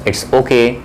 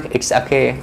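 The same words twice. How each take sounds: First: Said in the usual way. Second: Okay said as aake, open ah vowel at the start; American okay. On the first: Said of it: "ओ के बोलते हैं". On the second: Shown as a demonstration. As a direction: say it's okay with okay as aake, not oh-kay. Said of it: "इसका correct pronunciation है आके". (okay को आके बोलिए, ओ नहीं)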